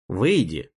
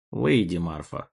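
First: Curt, clipped command; short sharp order. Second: Low, weary sigh of a command; tired sigh. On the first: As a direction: snap it out briefly. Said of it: "коротко и резко приказал тот". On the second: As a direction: sigh it out, worn down. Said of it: "устало вздохнул Брюс". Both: Acted.

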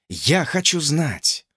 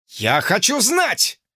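First: Слово «я» ударено, slow; stress on я. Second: Слово «знать» ударено, громко и протяжно, slow; stress on знать. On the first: George insisting to Lucy, stress on «я». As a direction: hit «я» firmly. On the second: George demanding answers from Lucy, stress on «знать». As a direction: lean hard on «знать», drawn out. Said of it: "почти закричал Джордж". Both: A narrator's reading.

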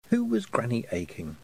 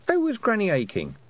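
First: Said in the usual way. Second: High, questioning other voice; curious voice. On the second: A narrator's reading. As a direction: ask it as a different person, lifted. A voice asks, pitched high.

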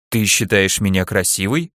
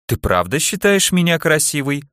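First: Understated, wondering question; surprised. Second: Higher, flirtatious question; coquettish.

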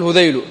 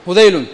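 First: هذيل ending in a plain short u, no final n; no tanween. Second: هذيل ending in a nunated -un; with tanween. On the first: Teacher giving students the tribe-name reading, without tanween. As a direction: say هذيل without nunation, closing on -u. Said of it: "فعلى هذا نقول هذيل". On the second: Teacher giving students the alternative reading, with tanween. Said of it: "أو نقول". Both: Shown as a demonstration.

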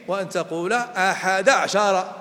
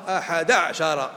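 First: أحد عشر said slowly, sounding each letter; careful demo pronunciation. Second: أحد عشر said slowly with the ع of عشر silent; slow demo pronunciation. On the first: Teacher shows students how to say أحد عشر, slow and careful. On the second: Teacher shows the other reading of أحد عشر, slow and careful. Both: Shown as a demonstration. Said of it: "يجوز أن تقول".

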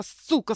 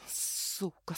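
First: Бормочет сквозь зубы. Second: «Сука» почти беззвучным шёпотом сквозь стиснутые зубы; прошипи «Сука» еле слышно, тише обычного; бормоча сквозь зубы. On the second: («Сука» — злой шёпот сквозь зубы) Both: A narrator's reading. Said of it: "скрипя зубами, забормотала я".

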